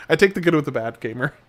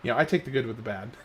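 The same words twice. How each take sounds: First: Louder, firm restatement landing on take; emphatic repeat. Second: Rushed, half-laughing mumble; quick giggly throwaway; laughing through it. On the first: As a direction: say it again properly and punch take. Repeats line clearly for emphasis. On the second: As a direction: tumble it out fast while chuckling. Fumbling line, laughing through it. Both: Real, not acted.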